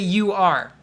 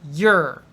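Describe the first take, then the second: First: It is said as two separate syllables. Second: It is said as one single syllable. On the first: The speaker calls it wrong. "don't say you are. Uh, you are is two sounds" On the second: The speaker calls it right. "Make it one sound"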